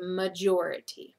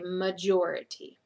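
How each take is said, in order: First: The base word major changes its sound here. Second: The base word major changes its sound here.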